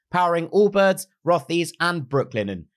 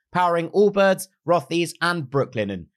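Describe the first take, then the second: No difference in how they are said.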